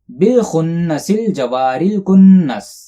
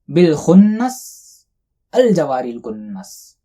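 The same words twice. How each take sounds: First: The words run on without a pause. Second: There is a pause in the middle.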